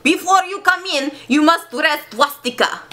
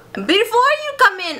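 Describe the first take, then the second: First: Hammed-up German accent, opening high. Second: High, wobbly attempt at German accent; botched German accent. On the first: Playwright ordering visitors before entry, German accent. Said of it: "This is German". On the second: Playwright stopping visitors, botched German accent. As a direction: swoop high in a badly faked German accent. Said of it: "my accents".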